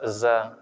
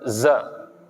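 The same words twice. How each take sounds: First: The sound is released quickly and light. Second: The sound is held and thick. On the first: The speaker calls it right. "Dia cukup dilepas za" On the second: The speaker calls it wrong. "tidak boleh ditahan, bukan za"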